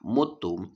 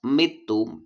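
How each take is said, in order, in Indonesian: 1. Vokal pertama adalah bunyi 'u'. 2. Vokal pertama adalah bunyi 'i'. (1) "dibaca dhammah mutum" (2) "dibaca kasroh mitum"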